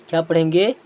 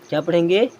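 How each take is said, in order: Both takes have the same delivery.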